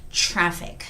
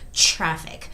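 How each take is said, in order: Both takes have the same delivery.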